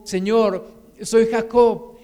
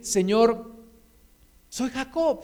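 First: Said in the usual way. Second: Earnest acted prayer, pitched up; heartfelt confession. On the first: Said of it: "Dios le preguntó su nombre y le dijo". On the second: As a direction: let the heart speak, humbly owning the name. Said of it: "voy a dejar un poquito mi corazón que hable".

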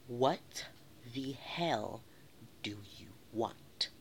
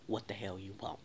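First: WHAT, THE HELL, DO YOU WANT in separate chunks with pauses; slow, emphatic repeat. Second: Low, restrained question; mock-polite and held back, voice kept down; peaceful, respectful. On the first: Retold or imitated. Repeats it slowly for the man. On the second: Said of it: "in my most peaceful and respectful voice".

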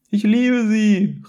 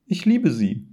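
First: High, loud, drawn-out shout; calling after. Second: Higher, nervous confession; trembling declaration. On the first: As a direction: call it desperately after mother. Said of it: "rief Sven seiner Mutter hinterher". (laut und hoch hinterherrufen) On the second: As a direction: confess it timidly to mother. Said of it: "mit zitternder Stimme". (zaghaft und mit zitternder Stimme) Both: A narrator's reading.

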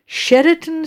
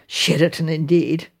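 First: Said in the usual way. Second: Lower, dismissive echo of SHERATON; scornful echo. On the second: Acted. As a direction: scoff at the word SHERATON. Scoffing at the advert's claim.

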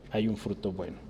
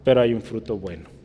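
First: Soft echo. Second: Said in the usual way. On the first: Shown as a demonstration. Preacher echoing his point softly to the church. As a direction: drop to a hushed repeat. Echoed softly after the first take.

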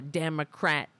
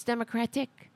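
First: "Democrat" ending on a stressed "rat", without "-ic"; clipped-suffix party name. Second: "Democratic" with the final "-ic" sounded; full correct name. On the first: Retold or imitated. Host quotes media's misnaming, "Democrat" ending hard on "rat". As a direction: say "Democrat" as opponents do, stopping at "crat". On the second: Shown as a demonstration. Host corrects the party name, "Democratic" with its "-ic" ending. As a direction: say "Democratic" in full, stressed on "crat". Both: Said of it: "No, it's Democratic".

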